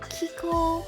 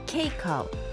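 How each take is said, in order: First: The first syllable sounds like 'key'. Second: The first syllable sounds like 'cake'. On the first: The speaker calls it wrong. "A lot of people get confused and say Kiko" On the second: The speaker calls it right. "it's actually pronounced like cake with an O"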